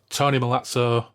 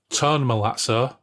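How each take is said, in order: First: The first name is said with two syllables. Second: The first name is said with one syllable. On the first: The speaker calls it wrong. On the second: The speaker calls it right. "It is Tone Malazzo"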